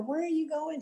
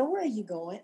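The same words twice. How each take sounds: First: High, stunned disbelief; disbelieving. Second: Said in the usual way. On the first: Retold or imitated. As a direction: ask as if you can't believe it. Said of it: "She just couldn't believe it".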